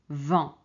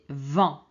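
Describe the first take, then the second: Both takes have the same delivery.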